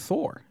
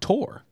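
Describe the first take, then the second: First: The name starts with a TH sound. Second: The name starts with a plain T sound. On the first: This is the familiar English version of the name. The speaker calls it wrong. "his name's not even Thor" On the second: This is the original version of the name. The speaker calls it right. "It's Tor"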